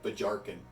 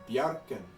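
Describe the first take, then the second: First: The J is pronounced as a J sound. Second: The J is pronounced as a Y sound. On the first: The speaker calls it wrong. "to say it with a J is a bit odd" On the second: The speaker calls it right. "it is a Y sound"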